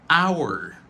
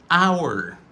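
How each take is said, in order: First: It is said with the full 'our' sound. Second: The same.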